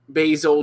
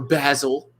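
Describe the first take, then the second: First: It is said with an American pronunciation. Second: It is said with a British pronunciation.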